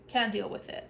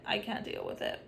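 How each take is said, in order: First: Said in the usual way. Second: Breathy whispered repeat. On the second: Real, not acted. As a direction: drop it to a weary whisper.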